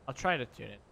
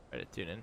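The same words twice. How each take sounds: First: Said in the usual way. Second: Lower, softer repeat of the phrase; low murmured echo. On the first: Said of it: "repeats the phrase". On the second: Real, not acted. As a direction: murmur "Try to tune in" low and soft to yourself. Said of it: "repeats in low murmur".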